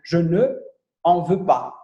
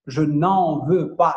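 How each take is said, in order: First: The word ne is said fully before en. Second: The ne loses its vowel and joins en. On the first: The speaker calls it wrong. "a gente viu lá que ele estava assim" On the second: The speaker calls it right. "é uma coisa só"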